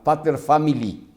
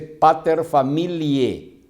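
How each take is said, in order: First: The last word ends with an English 'ee' sound. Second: The last word ends with a Latin 'eh' sound. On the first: The speaker calls it wrong. "¿Cómo que pater family? Es en inglés" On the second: The speaker calls it right. "Se dice pater familie, no es family"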